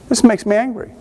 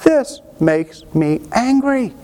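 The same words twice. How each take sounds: First: Said in the usual way. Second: Slowed-down, pitched-up mock "This makes me angry"; drawn-out demo of righteous anger, every word stretched; slow, stretched indignation. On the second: Shown as a demonstration. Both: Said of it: "I'm just talking about".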